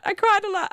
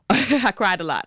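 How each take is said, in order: First: Much higher, emphatic on cried; high, emphatic admission. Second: Laughing. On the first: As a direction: push the word cried up high. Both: Real, not acted. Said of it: "time of the month".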